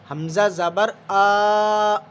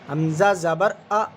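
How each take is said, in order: First: The final vowel is drawn out long. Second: The final vowel is short and quick. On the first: The speaker calls it wrong. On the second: The speaker calls it right.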